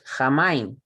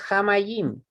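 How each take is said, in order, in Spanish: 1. No hay una y antes de la última sílaba. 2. Hay una y antes de la última sílaba. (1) "es Jamaim" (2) "No es Jamayim"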